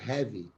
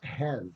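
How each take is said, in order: First: The word ends with an added vowel sound. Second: The word ends cleanly on the V sound. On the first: The speaker calls it wrong. "instead of" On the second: The speaker calls it right. "physically pronounce have instead of"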